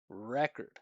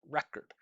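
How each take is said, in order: First: The vowel sounds are emphasized. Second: The consonant sounds are emphasized. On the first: The speaker calls it right. "Vowel sounds would be record" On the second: The speaker calls it wrong. "consonant sounds would be record"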